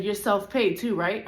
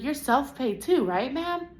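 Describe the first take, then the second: First: Said in the usual way. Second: High, slow, prim mock of the receptionist; mock receptionist voice, high and drawn out. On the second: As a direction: parrot her sugary question, pitched up high. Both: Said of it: "she's like".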